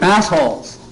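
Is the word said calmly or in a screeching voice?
screeching. The word is said in a screeching voice. The speaker expressed hostility. "In that tone?"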